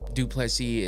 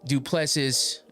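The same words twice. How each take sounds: First: It is said closer to the native pronunciation. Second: It is said the way the spelling suggests. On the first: This is the more correct pronunciation. "the way you say it if you're trying to be somewhat correct" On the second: This is how it is commonly read in America. "the way we look at it and see it in America"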